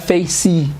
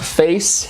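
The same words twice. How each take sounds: First: It ends with an added vowel sound after the consonant. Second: It ends on the consonant with no final vowel. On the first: The speaker calls it wrong. "Não é face. Face seria se terminasse com Y" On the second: The speaker calls it right. "O E nunca é pronunciado"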